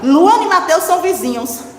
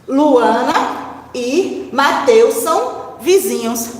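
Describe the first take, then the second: First: It is said fast, words run together. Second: It is said slowly, word by word.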